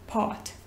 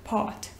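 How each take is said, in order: First: It is said with a British accent, R dropped. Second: It is said with a British accent, R dropped.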